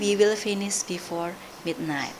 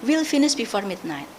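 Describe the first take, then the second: First: The word will is said in full. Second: The word will is contracted to we'll. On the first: The speaker calls it wrong. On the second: The speaker calls it right. "native speaker, they will say will finish"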